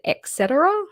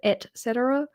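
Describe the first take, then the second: First: The first word is mumbled, sounding like 'ex'. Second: The first word is clearly said as 'et'. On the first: The speaker calls it wrong. "because I say it et cetera, like the the C" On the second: The speaker calls it right. "technically it's et, isn't it?"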